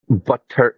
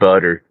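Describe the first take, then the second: First: The middle T is crisp and strongly pronounced. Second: The middle T is soft, sounding like D. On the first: This is how the British-trained coworkers said it. The speaker calls it wrong. "they'd put so much emphasis on the T" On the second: This is how Americans say it. The speaker calls it right. "replace those T's with D's"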